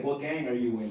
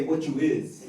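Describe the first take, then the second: First: Said in the usual way. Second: A hint of a street tough asking; gangbanger slang. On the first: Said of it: "They don't say it that way". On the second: Shown as a demonstration. Mock thug sizing up a stranger, lightly voiced. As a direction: toss it out like a corner kid. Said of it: "they say".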